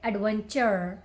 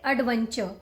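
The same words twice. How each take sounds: First: The final r sound is clearly pronounced. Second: The final r sound is dropped. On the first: "if you're working on your American pronunciation, then you need to pronounce that last R" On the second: "if you're working on your Indian pronunciation, ... don't just pronounce that last R"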